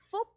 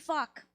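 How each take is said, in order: First: It is said with a Vietnamese pronunciation. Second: It is said like the English swear word. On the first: The name means good fortune. "in Vietnamese, you pronounce it" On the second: It sounds like an offensive word. "In English, it could be"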